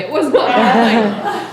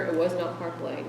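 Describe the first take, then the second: First: Loud, slow stress on "not Park Lane"; emphatic denial. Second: Said in the usual way. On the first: Real, not acted. Speaker jokingly disowning Park Lane as the source, emphatic denial. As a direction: punch "not" hard and slowly, half laughing. Jokey emphatic repeat after plain take.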